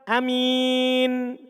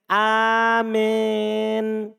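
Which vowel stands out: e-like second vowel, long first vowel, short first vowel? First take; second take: short first; e-like second. First: The first vowel is short, the second a clear i. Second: The first vowel is long, the second sounds like e. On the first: "Hamzanya dibaca pendek" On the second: "seakan-akan berbunyi seperti vokal lafaz E"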